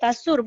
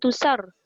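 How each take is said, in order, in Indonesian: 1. Vokal pertama adalah bunyi 'a'. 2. Vokal pertama adalah bunyi 'u'. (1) "tasur bukan tusar" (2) "bukan tusar"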